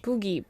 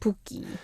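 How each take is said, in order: First: The middle consonant sounds like a soft g. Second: The middle consonant sounds like a hard k. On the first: This is the dictionary standard form. "The standard pronunciation should be Poogie" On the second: This is how people actually say it. "growing up, I'm just pronouncing it like"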